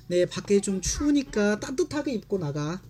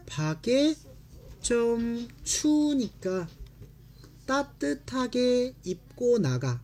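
First: Fast, natural Korean read-through. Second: Slow, carefully split Korean phrases; slow read. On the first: Teacher rattles off the mother's line, fast. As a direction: run the line quickly like a native. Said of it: "teacher reads sentence quickly". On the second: Teacher models the mother's line slowly. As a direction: read it word by word for students. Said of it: "teacher reads sentence slowly". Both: Shown as a demonstration.

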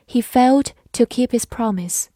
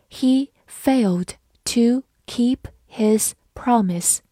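First: Said in the usual way. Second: Slow, each word set apart; dictation-like pace with pauses between words; slow reading. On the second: Shown as a demonstration. Teacher models the example sentence for learners, slowly. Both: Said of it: "好，慢慢来读".

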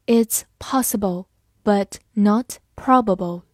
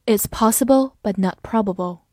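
First: It's possible, but not probable read slowly and clearly; deliberate slow model reading of It's possible, but not probable. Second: Said in the usual way. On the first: Shown as a demonstration. Teacher reads example slowly for class, deliberate. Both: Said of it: "我们慢读一遍".

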